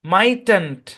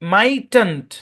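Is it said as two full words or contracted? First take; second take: contracted; contracted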